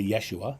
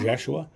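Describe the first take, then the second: First: The name begins with a clear Y sound. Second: The name begins with a blended Y-J sound. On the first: "in writing, it's a Y, so people say" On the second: "It was a Y and a J mix, more of a Jeshua"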